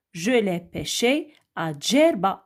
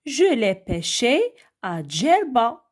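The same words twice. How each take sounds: First: Said in the usual way. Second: Reading an example aloud. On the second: Shown as a demonstration. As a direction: read the answer sentence slowly. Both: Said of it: "regardez avec moi la deuxième phrase".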